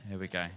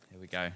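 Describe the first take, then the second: No difference in how they are said.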